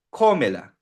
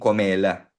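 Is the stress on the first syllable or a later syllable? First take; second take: first; later. First: The stress stays on the first syllable. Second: The stress falls on a later syllable. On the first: The speaker calls it right. "dapat mapanatili yung ko" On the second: The speaker calls it wrong. "Mali yun"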